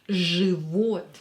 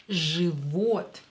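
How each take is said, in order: Both takes have the same delivery.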